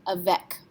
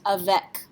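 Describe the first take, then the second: First: Avec, final C said as a hard K; French avec with K ending. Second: Avec said the French way, a-VEK. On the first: Teacher repeating avec, stressing the K sound. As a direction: repeat avec, a-VEK, crisp K at the end. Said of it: "pronounced like a K". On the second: Teacher modelling avec, the C said like a K. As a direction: give avec its French sound, a-VEK with a hard K. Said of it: "would be pronounced avec". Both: Shown as a demonstration.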